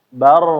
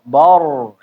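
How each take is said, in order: First: The ba is thin, with an open a vowel. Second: The ba is thick, with a rounded o vowel. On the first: The speaker calls it right. "Ba-nya tetap tipis" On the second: The speaker calls it wrong. "ba-nya jangan ikutan tebel"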